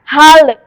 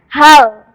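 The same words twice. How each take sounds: First: The final L is released with a bounce. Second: The final L is pressed and held firm. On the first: The speaker calls it wrong. "Tidak boleh seperti itu ya" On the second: The speaker calls it right. "Harus ditekan membacanya"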